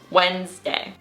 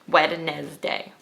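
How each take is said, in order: First: The D is silent, giving two syllables. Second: The D sound is pronounced in the middle. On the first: The speaker calls it right. "Two syllables, ... we just forget about it when we pronounce it" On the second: The speaker calls it wrong. "But that's wrong, that's false"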